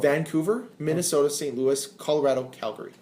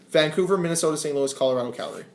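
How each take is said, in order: First: The list is said at a slower pace. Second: The list is said at a faster pace.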